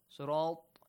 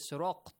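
First: The t sound is clean with no q sound. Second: The t sound has an added q-like sound. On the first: The speaker calls it right. "Instead of saying طا correctly" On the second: The speaker calls it wrong. "Some people say صراط الذين. It's wrong"

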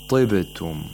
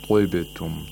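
First: The first sound is only lightly heavy. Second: The first sound is strongly, exaggeratedly heavy. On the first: The speaker calls it right. "it has the lowest level of تفخيم" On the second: The speaker calls it wrong. "We don't say طبتم. We don't exaggerate the تفخيم"

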